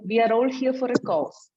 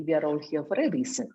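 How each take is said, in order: First: Said in the usual way. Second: Corrected line said fast, a bit softer; quick corrected phrasing. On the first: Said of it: "someone said". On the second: Shown as a demonstration. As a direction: rattle off the fix. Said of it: "I think it should be".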